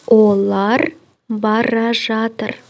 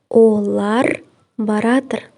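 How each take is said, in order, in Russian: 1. Глагол произносится в полной форме. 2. Глагол произносится в сокращенной форме.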